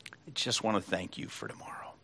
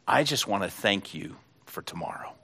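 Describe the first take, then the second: First: Put-on hushed child's whisper of gratitude; whispered thanks. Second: Said in the usual way. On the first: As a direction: repeat the line as a soft, tender whisper. Boy repeats thanks, hushed. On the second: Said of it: "the boy said".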